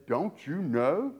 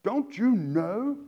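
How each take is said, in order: First: Slow, pointed sarcastic question; drawn out, letting the sting land; sarcastic rebuke. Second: Slow, louder pointed question; attention-grabbing rebuke. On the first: Preacher voicing Paul's rebuke to Corinthians, slow sarcastic question. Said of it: "it should hit them exactly the way it sounds". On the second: Paul rebuking the church to get attention, slow pointed question. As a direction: lean on it to wake them up. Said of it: "trying to get their attention". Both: Retold or imitated.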